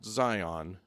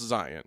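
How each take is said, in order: First: It is said the usual, non-local way. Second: It is said the local Utah way. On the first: The speaker calls it wrong. "it's not going to be pronounced Zion" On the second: The speaker calls it right. "that's how we pronounce it"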